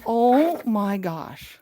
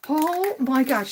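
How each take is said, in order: First: Slow, loud gasp of awe; drawn-out wonder; amazed. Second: Loud, a little slow; amazed. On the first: Overwhelmed on finding it. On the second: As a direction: still stunned. Second exclamation, less drawn. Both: Real, not acted.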